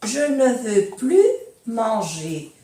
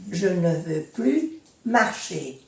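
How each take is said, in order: First: "plus" said "ply", no S; silent S in plus. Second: "plus" as "ply" before "marcher"; silent S in plus. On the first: Teacher showing the negative "plus" without the S. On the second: Teacher giving a second negative example, no S. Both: Shown as a demonstration. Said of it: "ne se prononce pas le S".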